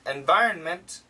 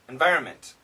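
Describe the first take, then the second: First: A slight N sound is heard before the M. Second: The N sound is dropped before the M. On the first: The speaker calls it right. "there is a very slight N sound" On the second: The speaker calls it wrong. "the N is gone"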